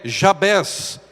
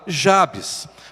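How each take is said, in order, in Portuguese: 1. O nome é pronunciado do jeito hebraico. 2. O nome é pronunciado do jeito português. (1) "a pronúncia em hebraico para esse nome é" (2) "em português nós costumamos falar"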